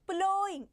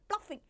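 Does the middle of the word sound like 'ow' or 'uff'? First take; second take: ow; uff. First: The middle sounds like 'ow' with no f. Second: The middle sounds like 'uff' with an f. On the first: The speaker calls it right. "It is plowing" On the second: The speaker calls it wrong. "People usually pronounce it as pluffing. It's not pluffing"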